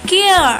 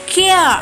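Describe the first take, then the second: Both takes have the same delivery.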